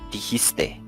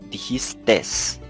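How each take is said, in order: First: The word ends in a vowel sound. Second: The word ends with an added s sound. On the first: The speaker calls it right. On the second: The speaker calls it wrong.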